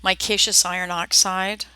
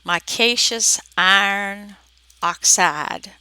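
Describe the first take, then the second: First: Said in the usual way. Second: Slow, words separated by pauses; measured, word-by-word enunciation; careful repetition. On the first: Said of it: "nothing sounds intelligible". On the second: Shown as a demonstration. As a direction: say it slowly so it can be understood. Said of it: "nothing sounds intelligible, so".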